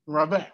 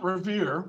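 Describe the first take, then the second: First: Revere said the French way, "ruh-VAIR"; French pronunciation. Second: Revere said the English way, "ruh-VEER"; American pronunciation. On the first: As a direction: Revere with a French R and an open final vowel. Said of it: "How would the French pronounce it?". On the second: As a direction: Revere with the American vowel, rhymes with "beer". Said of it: "that's the Americanization of it". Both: Shown as a demonstration.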